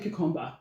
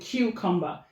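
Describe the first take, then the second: First: It is said with a Nigerian accent. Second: It is said with an Australian accent. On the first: "I call it cucumber" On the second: "he calls it cucumber"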